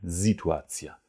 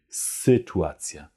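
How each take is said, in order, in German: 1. Auf das S folgt ein klarer 'ee'-Vokal. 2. Ein stimmloses S wird von einem dumpfen Vokal gefolgt. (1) "Also kein Situacja" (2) "mit einem stimmlosen S gefolgt von einem Nussknacker-Ü"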